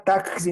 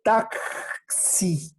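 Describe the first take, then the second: First: Said in the usual way. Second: Softer "Taxi" showing the ks; sound demonstrated. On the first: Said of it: "no tac". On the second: Shown as a demonstration. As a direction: say "Taxi" softly, slowly, with the ks. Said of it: "¿Te das cuenta?". ("Taxi" suave, marcando la ks)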